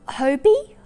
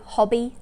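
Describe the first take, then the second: First: The first vowel is long. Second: The first vowel is short. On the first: "they say it's Hobie" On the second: "it's a short vowel sound for the O"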